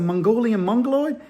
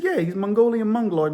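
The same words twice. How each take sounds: First: "Mongolian Mongoloid" with a rising questioning end; puzzled echo question. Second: "Mongolian Mongoloid" with a falling, settled end; confirming statement. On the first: Officer to captain, "Mongolian Mongoloid" as a rising puzzled question. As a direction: echo "Mongolian Mongoloid", lifting the last word. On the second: Captain assuring officer, "Mongolian Mongoloid" as a falling confirmation. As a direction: state "Mongolian Mongoloid" as fact, pitch dropping. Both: Retold or imitated.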